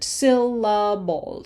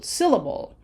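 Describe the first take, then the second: First: "Syllable" said slowly as three separate beats, syl-la-ble; "Syllable" stretched out, each syllable its own unit; broken into syllables. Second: Said in the usual way. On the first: Shown as a demonstration. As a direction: break "Syllable" apart syllable by syllable. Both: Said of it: "broken up in syllables like this".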